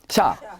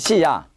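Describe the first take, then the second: First: The two sounds are merged into one syllable. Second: The two sounds are said as separate syllables. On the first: The ya is written small. "좁게 쓸 때는 붙여" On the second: The small ya is written full size. "크게 쓸 때는 시야"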